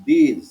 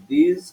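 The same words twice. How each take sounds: First: "দিস" with a long ee, as in these; "দিস" as English these, drawn out; long vowel. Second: "দিস" with a short i, as in this; "দিস" as English this, short i; short vowel. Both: Shown as a demonstration. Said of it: "একটু লম্বা করে করবা".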